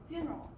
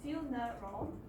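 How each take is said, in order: First: The word is said quickly with two syllables. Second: The word is said with three syllables. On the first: "if you pronounce it very quickly" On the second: "three syllables"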